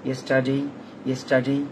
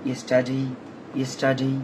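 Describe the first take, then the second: The two takes are said the same way.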